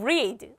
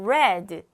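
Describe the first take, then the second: First: The vowel is a long 'ee' sound. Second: The vowel is a short 'e' sound. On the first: It is the base form of the verb. "동사 원형일 때는 read 우리가 알고 있는 발음인데" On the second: It is the past form of the verb. "변화형 과거로 가게 되면 어떤 발음을 읽는다? 바로 read 라고 발음을 읽었어요"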